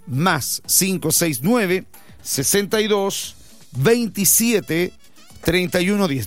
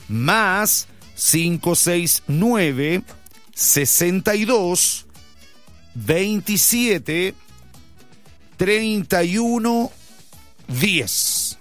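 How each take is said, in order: First: The number is read at normal speed. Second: The number is read slowly.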